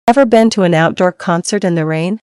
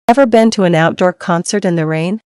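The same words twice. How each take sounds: The two takes are said the same way.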